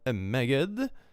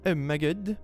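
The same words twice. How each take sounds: First: It is said in an exaggerated Swedish accent. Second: It is said in a posh British accent. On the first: "it's very uh, over, overdone, of course" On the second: "One of my friends talks super poshly, and we sometimes make fun of it"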